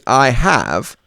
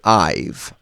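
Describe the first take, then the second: First: Said as two full separate words. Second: Said as one short contracted syllable. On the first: "instead of saying I have" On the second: "we're going to say I've"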